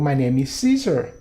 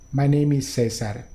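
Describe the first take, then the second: First: The name is pronounced the English way. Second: The name is pronounced the Spanish way. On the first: The speaker calls it right. "suena mucho, mucho, mucho más amigable al idioma inglés" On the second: The speaker calls it wrong. "Creo que no sonaría muy bonito"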